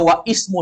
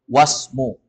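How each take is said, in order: First: An 'i' vowel is sounded before 'smu'. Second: No vowel is sounded before 'smu'. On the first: The speaker calls it wrong. "Dia dibaca wa ismu saja salah" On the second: The speaker calls it right. "hamzah wasol gak dibaca. Langsung masuk ke huruf berikutnya"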